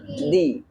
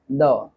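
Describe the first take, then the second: First: The word is said with a long 'ee' vowel. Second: The word is said with a short, weak vowel. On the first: It comes before a word starting with a vowel sound. "If our word starts with vowel sound, it is pronounced the" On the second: It comes before a word starting with a consonant sound. "the word which starts with consonant sound, and if you have to use the, then we pronounce the"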